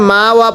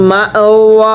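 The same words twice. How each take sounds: First: মা ওয়া run smoothly, no catch after মা; missing hamza. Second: মা cut by a glottal catch, ওয়া held long; hamza sounded. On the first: Teacher warning learners off a mistake, মা ওয়া without hamza. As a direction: say মা ওয়া without a glottal stop, as in speech. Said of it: "পড়া যাবে না". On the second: Teacher modelling the rule, মা ওয়া with a glottal stop. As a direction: stop sharply after মা, then draw out ওয়া. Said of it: "আলিফকে হামজা পড়তে হয়". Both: Shown as a demonstration.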